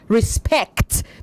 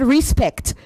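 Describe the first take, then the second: First: The stress is on the second syllable. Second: The stress is on the first syllable. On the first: The speaker calls it right. "The stress is on the second" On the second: The speaker calls it wrong. "You said respect"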